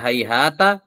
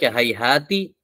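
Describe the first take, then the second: First: The word ends with an a vowel. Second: The word ends with an i vowel. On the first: "bisa di fathah" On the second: "bisa di kasrah"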